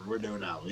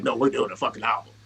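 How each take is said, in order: First: Low, soft, shrugging acceptance; offhand agreement. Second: Low, louder, firm correction; imitating insistence. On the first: Retold or imitated. Rapper humoring his bandmate's album plan, offhand. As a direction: toss it off low and quiet. Retold half-believing agreement. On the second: Bandmate correcting his doubt about the album, insistent. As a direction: push back firmly, keeping it low.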